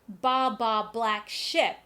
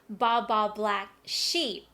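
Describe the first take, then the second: First: The last word has a short 'i' vowel. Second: The last word has a long 'ee' vowel. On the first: The speaker calls it wrong. "So you don't say" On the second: The speaker calls it right. "you say"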